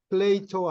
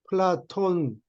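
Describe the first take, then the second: First: The name is said as plei-to, without final n. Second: The name is said as pla-ton, ending in n. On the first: This is the Latin way of saying the name. "라틴어 발음이고" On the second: This is the Greek way of saying the name. "그건 그리스 발음이고"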